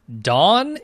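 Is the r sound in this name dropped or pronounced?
dropped. The name is said without an r sound. It copies the audiobook narrator's way of saying it. "he says some words with a very British accent"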